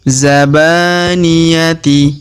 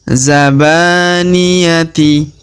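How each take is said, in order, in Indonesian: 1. Kata ini berakhir dengan bunyi t dan i. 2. Kata ini berakhir dengan bunyi t dan i.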